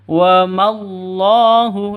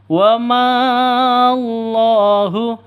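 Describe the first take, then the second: First: The vowel is short, going straight into the l. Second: The vowel before the l is drawn out long. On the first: The speaker calls it right. "Yang betul ... langsung ke Allahu" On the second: The speaker calls it wrong. "bukan dibaca panjang. ... itu salah"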